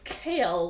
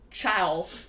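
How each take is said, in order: First: The name rhymes with pale. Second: The name rhymes with cow. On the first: The speaker calls it right. "It's Kale, like K A L E" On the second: The speaker calls it wrong. "it's not Chow, which is what I thought"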